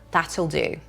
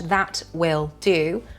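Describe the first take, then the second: First: The two words are contracted into one. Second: Both words are said in full. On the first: The speaker calls it right. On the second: The speaker calls it wrong. "not that will do"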